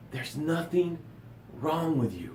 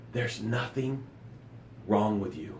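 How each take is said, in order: First: Much softer, hushed reassurance. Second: Much softer, lower, gently reassuring; soft reassurance. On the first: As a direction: say it again, hushed. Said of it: "I'm gonna say it again". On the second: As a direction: lay it down softly and low. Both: Real, not acted.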